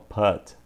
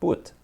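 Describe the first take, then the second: First: The vowel is an open a sound. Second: The vowel is a closed u sound. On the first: The speaker calls it wrong. "Muitas pessoas falam put, tentando modular pelo to cut" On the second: The speaker calls it right. "A pronúncia dele é to put... é um som de u"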